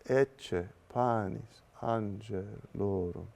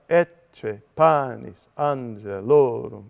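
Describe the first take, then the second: First: Accented syllables are lifted gently in pitch. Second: Accented syllables are hit heavily and loudly. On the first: The speaker calls it right. "my voice goes up for these accented syllables" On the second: The speaker calls it wrong. "We never have this kind of heavy accent"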